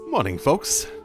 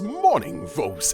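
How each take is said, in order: First: It is said in a plain, ordinary voice. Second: It is said in a grand, epic voice.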